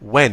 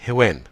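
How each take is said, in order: First: It starts with a plain w sound, no h. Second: It starts with an added breathy h sound. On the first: The speaker calls it right. "يبقى ديت when" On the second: The speaker calls it wrong. "انه زود صوت ال ه"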